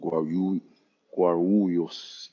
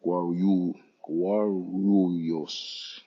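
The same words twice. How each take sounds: First: "Guarulhos" tried twice, the second go slower; tentative pronunciation attempt. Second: "Guarulhos" said twice, the second very drawn out; Brazilian pronunciation. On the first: Traveller attempting the hard airport name "Guarulhos", careful pronunciation attempt. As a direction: have a careful go at "Guarulhos", then repeat it slowly. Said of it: "It's hard for me to pronounce".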